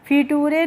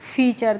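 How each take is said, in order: First: The ending is said like 'tooray'. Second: The ending is said like 'chur'. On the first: The speaker calls it wrong. "नहीं पढ़ेंगे" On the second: The speaker calls it right. "करके पढ़ेंगे"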